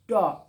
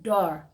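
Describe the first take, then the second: First: It is said in a British accent. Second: It is said in an American accent. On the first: "tapi kalau di British door gitu" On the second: "kalau di American door"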